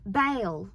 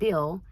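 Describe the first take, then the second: First: The name is drawn out in a thick Southern accent. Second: The name is said short in a plain accent. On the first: "really thick Southern accents, like almost fake Southern accents" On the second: "instead of Bill"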